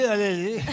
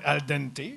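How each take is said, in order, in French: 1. Les consonnes D et T sont muettes. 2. Les consonnes D et T se prononcent.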